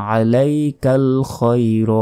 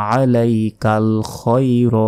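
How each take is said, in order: Both takes have the same delivery.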